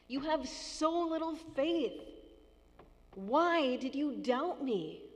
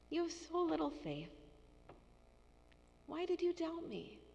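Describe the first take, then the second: First: It is said in a frustrated tone. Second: It is said in a compassionate tone.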